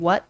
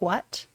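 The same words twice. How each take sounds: First: It starts with a plain w sound. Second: It starts with a breathy hw sound. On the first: "Instead of saying what" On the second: "Midwesterners pronounce the W H in words"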